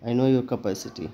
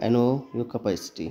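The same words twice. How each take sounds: First: Capacity said "ke-pa-siti" in a slowish sentence; a teacher models the word inside a sentence. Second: Slow repeat, capacity said "ke-pai-siti"; a teacher repeats the sentence for students to copy; model sentence. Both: Shown as a demonstration. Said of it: "इसको क्या बोलेंगे".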